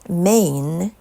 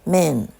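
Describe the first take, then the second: First: The vowel glides like two vowels. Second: The vowel is a single short sound. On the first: The speaker calls it right. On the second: The speaker calls it wrong.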